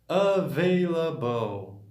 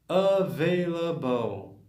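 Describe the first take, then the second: Both takes have the same delivery.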